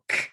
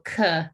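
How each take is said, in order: First: The k is a short bare stop. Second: The k is followed by an added vowel. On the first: The speaker calls it right. "We wanna go k" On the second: The speaker calls it wrong. "We don't wanna go kuh"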